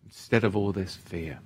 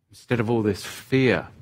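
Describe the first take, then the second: First: Lower, softer repeat; soft echo. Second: Said in the usual way. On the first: Acted. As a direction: let the words sink in quietly. Echoing it softly.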